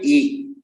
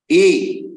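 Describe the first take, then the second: First: The pitch falls across the vowel. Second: The vowel is said on a raised pitch. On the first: "Swarita will be E"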